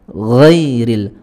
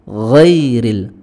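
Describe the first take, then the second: Both takes have the same delivery.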